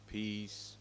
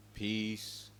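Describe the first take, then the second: No difference in how they are said.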